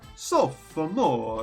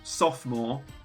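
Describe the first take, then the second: First: It is said with an Italian-sounding pronunciation. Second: It is said with ordinary English pronunciation. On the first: The speaker calls it right. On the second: The speaker calls it wrong.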